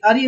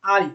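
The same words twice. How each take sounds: First: "अरी" with a short opening a; short first vowel. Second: "आरी" with a long opening aa; long first vowel. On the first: Teacher shows a pupil the mistaken form, short-vowel "अरी". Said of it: "अरी नहीं बच्चा". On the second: Teacher corrects the pupil, long-vowel "आरी". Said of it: "खिलाड़ी आ है ना". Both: Shown as a demonstration.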